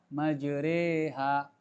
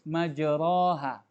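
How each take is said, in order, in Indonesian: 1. Bunyi vokal setelah r seperti e. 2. Bunyi vokal setelah r seperti a. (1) "namun dibaca majreha" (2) "Pada kata yang tertulis majroha"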